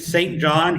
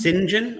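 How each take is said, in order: First: Both words are said in full, as spelled. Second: The name is squeezed into two syllables, 'sinjin'. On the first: "like the name Saint John here" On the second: "isn't it pronounced Saint John over there?"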